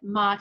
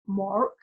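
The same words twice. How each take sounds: First: The name sounds harsh, like a crow's caw. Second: The name is said with an American accent. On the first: "I say it Mark and sound like a crow" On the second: "Americans say it Mark"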